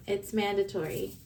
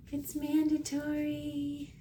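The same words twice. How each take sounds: First: Said in the usual way. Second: Higher, slow, cutesy repeat; playful sing-song. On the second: Pretend. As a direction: tease it out, high and drawn. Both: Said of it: "I have to squish them and hug them".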